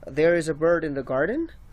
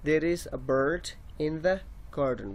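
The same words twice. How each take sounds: First: The voice rises at the end. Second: The voice falls at the end. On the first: The speaker is asking a question. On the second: The speaker is stating a fact.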